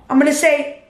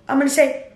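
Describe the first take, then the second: No difference in how they are said.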